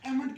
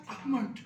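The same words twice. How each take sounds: First: एमंड with an e sound at the start; mock the wrong एमंड; wrong pronunciation. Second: अहमंड with a breathy ah; correct pronunciation. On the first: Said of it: "वो भी गलत होता है". (गलत उच्चारण एमंड) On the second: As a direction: open with ah, no l in अहमंड. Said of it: "ये word होता है". (सही उच्चारण अहमंड) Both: Shown as a demonstration.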